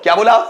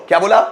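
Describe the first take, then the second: Both takes have the same delivery.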